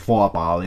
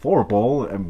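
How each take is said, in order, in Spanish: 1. El nombre se dice con una vocal alemana, sin r. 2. El nombre se dice con un sonido r estadounidense. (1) "pero es Foapal" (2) "así en gringo lo pronuncian Forpal"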